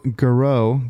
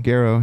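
First: Garreau as guh-ROH; Garreau with a reduced first vowel; alternate name pronunciation. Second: Garreau as GAIR-oh; Garreau with a full "gair" first; corrected name pronunciation. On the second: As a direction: stress the start of Garreau, GAIR-oh. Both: Real, not acted. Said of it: "Is it Garreau or Garreau?".

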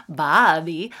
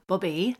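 First: "Bobby" with a wide open "ah", loud; loud, drawn-out "Bobby" with an open first vowel. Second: "Bobby" with a short oo-like first vowel; "Bobby" with its first vowel rounded and closed; slipped vowel. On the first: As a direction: punch out "Bobby" as "BAH-bee", ending upward. Laughs and says the name over. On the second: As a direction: say "Bobby" almost like "Booby", ending upward. Says name oddly, laughs, repeats it. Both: Real, not acted.

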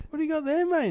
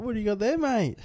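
First: Even higher squeaky repeat of the teasing question; mocking mate voice, pushed higher. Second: Much higher, teasing bloke asking about the sandwich; mocking mate voice. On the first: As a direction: climb higher on the second ask, teasing. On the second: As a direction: squeak it out like a nosy stranger filming. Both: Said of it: "He's like".

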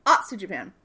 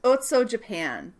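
First: Atsu said with an open "ah", "AHT-soo"; corrected Atsu. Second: Otso said with an "oh" at both ends; mispronounced Otso. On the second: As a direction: say Otso as "OHT-soh". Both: Real, not acted. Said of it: "I don't wanna say it wrong".

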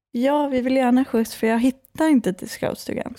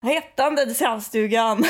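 First: Speaking with a Stockholm accent. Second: Put-on giggling through it, tipsy girl; giggly. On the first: Real, not acted. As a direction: Stockholm dialect, as she talks today. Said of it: "hade du sån Stockholmsdialekt?". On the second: Shown as a demonstration. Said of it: "så hur lät du?".

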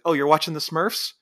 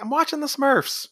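First: Raised-pitch sarcastic question; mocking echo. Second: High-pitched mock indignant protest; whiny protest. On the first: Jack answering the guy in his bed, mocking echo. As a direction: throw it back as a taunting question. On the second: Guy in Jack's bed refusing to leave, high mock protest. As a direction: pitch it way up as a petulant objection. Intruder protests to Jack, retold.

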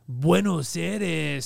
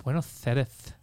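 First: "Buenos Aires" drawn out very slowly; slow Castilian "Buenos Aires"; Spanish accent. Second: "Buenos Aires" lisped as "Buenoth Airth"; lisping Spanish accent. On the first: Showing how Spaniards say it, slow Castilian accent. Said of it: "They're like". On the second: Showing the Castilian lisp, lisped "Buenos Aires". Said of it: "you have the Spanish, like". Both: Retold or imitated.

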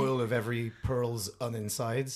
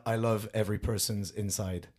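First: "All of Every Pearl's On Inside" spaced out slowly; slow, literal "All of Every Pearl's On Inside"; title as written. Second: "I love every person's inside" as an ordinary sentence; hidden-phrase reading. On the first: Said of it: "juste une autre façon de dire". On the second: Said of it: "une autre façon de dire". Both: Shown as a demonstration.

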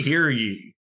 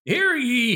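First: Town crier. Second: High, booming town crier call. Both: Pretend. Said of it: "old-timey cars with the, like, megaphone".

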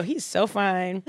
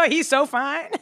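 First: Slow, savoured admiration; slow swooning. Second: High, laughing gush; giggly swooning. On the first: Host repeats the crush to co-host, slowly admiring. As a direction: draw it out, laughter settled. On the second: Host swoons over a celebrity to co-host, giggling. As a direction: gush through real giggles. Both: Real, not acted.

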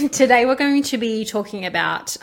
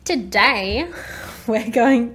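First: Giggling, loud and bright; laughing. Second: Big loud build-up on today; dramatic announcer. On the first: Real, not acted. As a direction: restart the intro through laughter. Restarts intro laughing. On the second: Acted. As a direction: announce it like a grand opening. Dramatic podcast opener.

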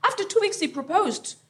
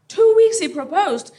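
First: Said in the usual way. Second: Two weeks punched high and loud; stress on Two weeks. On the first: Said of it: "first telling of the line". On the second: Shown as a demonstration. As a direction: hit "Two weeks" hard in disbelief. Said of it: "repeated with emphasis".

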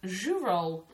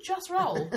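First: "Jus roll" as zhoo-roll, no t; "Jus roll" repeated earnestly as zhoo-roll; mispronounced brand name. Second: "just roll" with a hard j and clear st; high, incredulous "just roll", plain English just; correct brand name. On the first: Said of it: "thought it was called Jus Roll". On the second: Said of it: "'cause you just roll it out". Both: Retold or imitated.

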